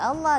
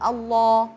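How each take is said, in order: First: The L is light and thin. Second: The L is heavy and thick. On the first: The speaker calls it wrong. "enggak enggak" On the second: The speaker calls it right.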